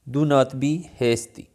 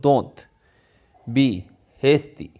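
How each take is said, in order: First: Do not is said as two full words. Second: Do not is joined into one syllable, don't.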